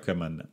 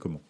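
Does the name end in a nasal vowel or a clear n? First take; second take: clear n; nasal vowel. First: The name ends with a clearly sounded n. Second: The name ends with a nasal vowel. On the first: The speaker calls it wrong. "c'est pas Coman" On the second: The speaker calls it right. "son vrai nom c'est comment"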